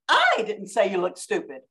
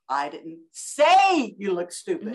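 First: The stress falls on the word I. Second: The stress falls on the word say. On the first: Someone else said it. "with all the emphasis on the word I" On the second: It was thought but not said. "with all the emphasis on the word say"

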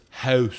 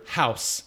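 First: It is said in a Tidewater Virginia accent. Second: It is said in a general American accent.

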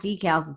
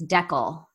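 First: It uses the usual American stress pattern. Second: It uses the Canadian stress pattern. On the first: "It's not decals" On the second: "That is the wrong accent on the wrong syllable"

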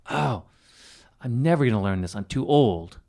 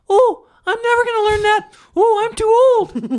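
First: It is said in a serious, negative tone. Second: It is said in a playful, silly tone.

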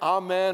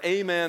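First: The word is said without a Texan accent. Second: The word is said with a Texan accent.

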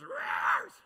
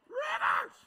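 First: It is said like a preacher, voice half-cracking. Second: It is said in a plain voice.

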